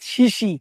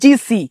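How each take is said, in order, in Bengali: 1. নামটি 'sh' শব্দ দিয়ে শুরু হয়। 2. নামটি 'j' শব্দ দিয়ে শুরু হয়।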